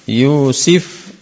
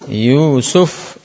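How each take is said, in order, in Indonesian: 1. Suku kata kedua memakai vokal i. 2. Suku kata kedua memakai vokal u. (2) "Pakai yu, nah yu suf"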